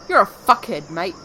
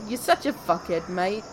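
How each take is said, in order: First: The tone sounds hostile and antagonistic. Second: The tone sounds friendly and teasing. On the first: The speaker is really insulting someone. "the second one was very much antagonistic and dislikeful" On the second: The speaker is not really insulting anyone. "then that was not"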